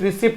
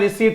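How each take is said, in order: First: The word is said with a p sound. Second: The word is said without a p sound. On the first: The speaker calls it wrong. "रिसिप्ट नहीं" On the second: The speaker calls it right. "इसका pronunciation रिसीट होता है"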